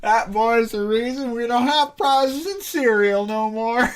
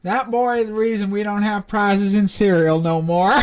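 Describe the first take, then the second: First: Slow reread, giggling throughout; laughing through it. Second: Said in the usual way. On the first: Real, not acted. Player repeats the line while laughing, slow and giggling.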